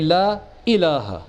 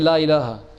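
First: The glottal stop before ilaha is clear. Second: The glottal stop before ilaha is dropped. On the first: The speaker calls it right. "Say, la ilaha. The hamza" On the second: The speaker calls it wrong. "So don't say"

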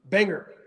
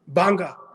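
First: It is said in an American accent. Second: It is said in a British accent.

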